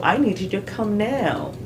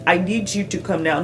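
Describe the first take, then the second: First: "I need you to come now" with NEED and COME lifted, falling end; content-word stress. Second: "I need you to come now" level, every word equal; even beat through "I need you to come now"; flat stress. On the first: Teaching stress, content words raised in "I need you to come now". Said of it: "Les mots que j'ai appelés les content words". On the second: Wrong example for learners, flat and unstressed. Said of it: "Non, c'est très flat". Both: Shown as a demonstration.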